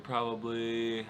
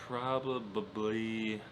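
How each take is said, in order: First: "probably" said slowly in three syllables, prob-ab-ly; corrected pronunciation. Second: "probably" with an extra stuttered syllable, probab-ab-ly, drawn out; stumbled pronunciation. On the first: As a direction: carefully redo "probably" without extra syllables, drawn out. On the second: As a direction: slowly garble "probably" into "probababbly". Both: Real, not acted. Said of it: "it's not a word".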